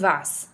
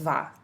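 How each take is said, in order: First: The final s is sounded at the end. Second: The final s is silent at the end. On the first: The speaker calls it wrong. "This is not tu vas" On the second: The speaker calls it right. "just va"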